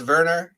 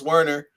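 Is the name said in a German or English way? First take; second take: German; English. First: The name is said the German way. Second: The name is said the English way.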